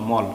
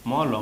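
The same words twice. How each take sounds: First: মল in one closed syllable; read joined. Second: ম and ল sounded as two separate letters; name ম, then ল, each open. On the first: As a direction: run ম into ল with no final vowel. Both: Shown as a demonstration. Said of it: "তখন একসঙ্গে বলবো".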